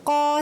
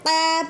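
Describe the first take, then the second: First: The long vowel is heavy and full. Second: The long vowel is thin and light. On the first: The speaker calls it right. "सही है" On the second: The speaker calls it wrong. "अगर हमें क़ा पढ़ती तो रॉन्ग हो जाता है"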